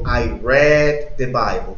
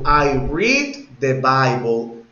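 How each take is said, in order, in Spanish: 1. El verbo tiene una vocal 'e' corta. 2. El verbo tiene una vocal 'ee' larga. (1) "como rojo" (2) "Oiga cómo pronuncié leer, read, con I"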